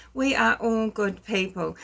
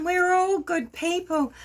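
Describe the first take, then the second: First: Said in the usual way. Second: Higher, sugary mock self-praise; mock sweet reassurance. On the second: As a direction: coo it in a fake saintly voice, higher. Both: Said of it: "You'll be like".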